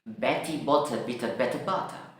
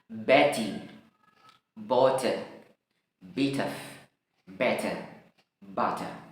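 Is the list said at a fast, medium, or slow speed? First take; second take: fast; slow. First: The words are said quickly. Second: The words are said slowly. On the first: "I'll try to a little bit faster, lebih cepat lagi" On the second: "Ini dalam uh, slow motion ya, dalam bentuk pelan ya"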